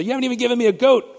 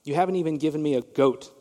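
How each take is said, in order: First: Higher, louder, fast whine on "goat"; mock a spoiled child whining "You haven't even given me a goat"; whiny kid voice. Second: Said in the usual way. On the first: Shown as a demonstration. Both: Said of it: "just say".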